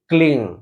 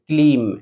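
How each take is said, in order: First: The word ends with a nasal ng sound. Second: The word ends with a closed m sound. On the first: The speaker calls it right. "आपको म न लेकर ग का उच्चारण देना है" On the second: The speaker calls it wrong. "म लास्ट में बोलते हैं क्लीम"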